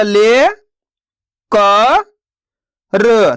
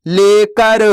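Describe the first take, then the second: First: ले, क, र each spoken apart with pauses; teacher sounding out ले क र slowly; syllable by syllable. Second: Said in the usual way. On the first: Shown as a demonstration. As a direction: sound out ले क र one syllable at a time. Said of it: "एक एक अक्षर का उच्चारण करके". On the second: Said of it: "तो मिलके बन जाएगा".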